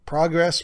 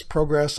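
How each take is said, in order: First: "Progress" said PRAH-gress, short o as in pot. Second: "progress" said PROH-gress, long o as in go. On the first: Host unsure of pronunciation, first says "Progress" as PRAH-gress. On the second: Host trying the other way, says "progress" as PROH-gress. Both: Shown as a demonstration. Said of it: "I'm not sure which one it is".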